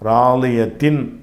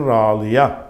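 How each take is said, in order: First: The word ends with a tin sound. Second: The word ends with a long a vowel. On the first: The reading continues past this word. "ராலிய தின் என்று சொல்லாமல்" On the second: The reader stops on this word. "நிப்பாட்டினா ராலியா"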